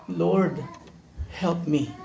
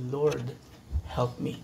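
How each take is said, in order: First: Humble whispered-ish request; soft plea. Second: Hushed plea. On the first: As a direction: ask quietly for help. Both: Acted. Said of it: "inulit lang niyang kanyang sinabi".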